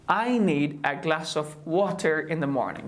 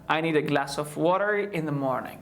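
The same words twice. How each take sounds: First: The t in water is a clear t. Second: The t in water is a soft d. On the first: The speaker calls it wrong. "Don't say" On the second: The speaker calls it right. "if you want to speak English like an American, just say"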